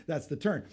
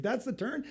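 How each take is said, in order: First: "That's the turn." falling, certain; just state it; statement. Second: "That's the turn?" rising high at the end; unsure; puzzled question. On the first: Shown as a demonstration. Showing how Marie said it, flat falling statement. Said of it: "She's saying a statement". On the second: Retold or imitated. Husband to Marie in the car, rising puzzled question. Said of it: "I thought she was asking a question".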